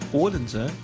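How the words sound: The name is said with a Danish pronunciation.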